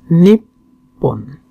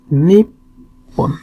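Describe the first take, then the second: The two takes are said the same way.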